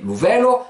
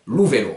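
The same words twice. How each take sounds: First: Vélo stressed on VÉ, weak final o; accent mal placé. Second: Vélo stressed on final LO; accent sur le O. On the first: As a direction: hit VÉ in vélo, let lo drop. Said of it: "ça va pas donner lou vélo". (« vélo » accentué sur VÉ, o faible) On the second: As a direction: lean on the last o: véLO. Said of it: "l'accent tonique tombe sur le O". (« vélo » accentué sur LO) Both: Shown as a demonstration.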